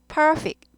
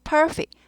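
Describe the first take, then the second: The two takes are said the same way.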